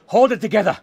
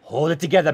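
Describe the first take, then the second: First: Louder, higher burst of panic; higher, forceful self-talk; frantic self-command. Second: Said in the usual way. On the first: Acted. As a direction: urge yourself to keep it together, raised voice. Repeats the self-command more frantically.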